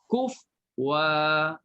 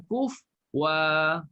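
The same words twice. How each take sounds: No difference in how they are said.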